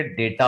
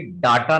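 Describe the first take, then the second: First: DATA as "day-taa"; correct pronunciation demo. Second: DATA as "daa-taa"; wrong pronunciation demo. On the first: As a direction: say डेटा with an "ay" first vowel. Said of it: "डाटा ना होकर के डेटा होता". (डेटा में पहला स्वर "ए") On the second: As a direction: say डाटा with a long "aa" first vowel. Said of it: "सही pronunciation actually डाटा ना". (डाटा में पहला स्वर लंबा "आ") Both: Shown as a demonstration.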